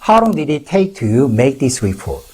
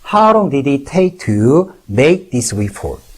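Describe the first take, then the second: First: It is said at normal speed. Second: It is said slowly.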